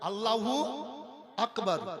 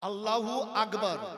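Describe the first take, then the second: First: Akbar is said with a k sound. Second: Akbar is said with a g sound. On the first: The speaker calls it right. "ওটা ক।" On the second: The speaker calls it wrong. "গ পড়ে, ওটা গ হবে না"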